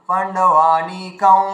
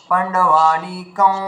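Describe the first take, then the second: The two takes are said the same way.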